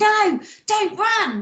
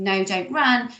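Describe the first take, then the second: First: The line is read with exaggerated expression. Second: The line is read flatly, without much expression.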